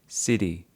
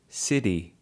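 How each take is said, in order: The two takes are said the same way.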